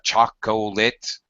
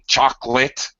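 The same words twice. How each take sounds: First: The middle syllable is kept. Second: The middle syllable is dropped. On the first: "instead of chocolate" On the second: "using ellipsis, things like saying chocolate"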